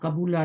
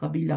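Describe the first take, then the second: First: The vowel after the b is u. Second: The vowel after the b is i. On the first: The speaker calls it wrong. "नहीं होता" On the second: The speaker calls it right. "होता है"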